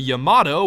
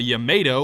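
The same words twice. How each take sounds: First: The word does not rhyme with tomato. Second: The word rhymes with tomato. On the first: The speaker calls it wrong. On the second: The speaker calls it right.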